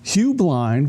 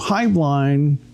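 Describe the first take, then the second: First: The first syllable sounds like 'hue'. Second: The first syllable sounds like 'high'. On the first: This is how the corporation says the name. "is the corporation name" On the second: This is how the family says the name. "is the family name"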